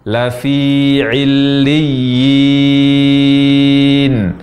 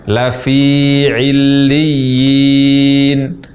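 No difference in how they are said.

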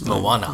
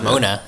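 First: The name is said with three syllables. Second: The name is said with two syllables. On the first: The speaker calls it right. "it's Moana" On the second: The speaker calls it wrong. "It's not Mona"

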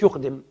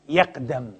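First: The first vowel is u, as in yuqdim. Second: The first vowel is a, as in yaqdam. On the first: It is a form meaning to put forward. The speaker calls it wrong. "ما تقولش يقدم، يقدم من أقدم" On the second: It is a form meaning to arrive. The speaker calls it right. "لكن قدم يقدم"

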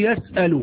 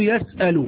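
First: A glottal stop is kept in the middle. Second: A glottal stop is kept in the middle.

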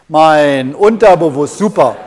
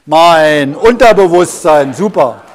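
No difference in how they are said.

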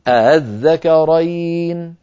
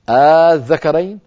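First: The opening is a softened, half-glottal vowel. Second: The opening is a long drawn-out vowel. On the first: "سهلوها يعني نطقوها مسهلة بين الهمزة المحققة وبين الألف هكذا" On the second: "الطريقة الأولى أبدلوها أليفا"

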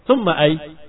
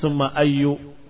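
First: The last word ends without any final vowel. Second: The last word ends with a short u vowel. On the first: The case ending is left out altogether. "kamu sukunkan selamat" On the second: The word is treated as tied to an implied following noun. "karena takdir mudhaf"

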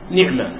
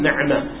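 First: The n has i, the ʿayn is unvowelled. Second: The n has a, the ʿayn is unvowelled. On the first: "المشهورة والأفصح نعمة بكسر النون وسكون العين" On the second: "بإسكان العين وفتح النون"

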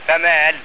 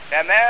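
First: The stop falls after the final l sound. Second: The stop falls on the vowel, dropping the l. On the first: The reciter pauses on the preposition lam. "الوقف على ايه على اللام" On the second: The reciter pauses on the word ma. "الوقف على ما"

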